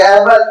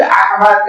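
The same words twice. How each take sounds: First: احمد with the throat h softened to a plain h; everyday Urdu pronunciation. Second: احمد with a strong pharyngeal h from the throat; Arabic pronunciation. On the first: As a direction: say احمد the Urdu way, no pharyngeal sound. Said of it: "ہم لوگ کہیں گے". (احمد کو سادہ اردو تلفظ میں، حلق کے بغیر) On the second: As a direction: draw out the throaty Arabic ح in احمد as a separate sound. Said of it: "الگ سے نکالے گا آواز". (احمد کی ح حلق سے الگ نکال کر، عربی تلفظ میں) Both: Shown as a demonstration.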